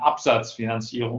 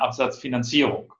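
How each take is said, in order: First: The stress is on the first syllable. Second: The stress falls on a later syllable. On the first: The focus is on sales rather than financing. The speaker calls it right. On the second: The focus is on financing rather than sales. The speaker calls it wrong.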